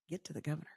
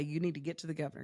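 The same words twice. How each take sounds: First: Soft, puzzled echo of the advice; baffled disbelief. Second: Said in the usual way. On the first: Retold or imitated. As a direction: repeat it back as if it makes no sense. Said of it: "I'm like". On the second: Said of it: "They'd say".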